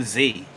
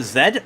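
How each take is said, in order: First: "Z" said as zee; American "Z", rhyming with see. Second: "Z" said as zed; British "Z", rhyming with bed. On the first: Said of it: "But I do say Z". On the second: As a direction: say "Z" the English way, zed, ending in a d. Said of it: "in England it's meant to be". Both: Shown as a demonstration.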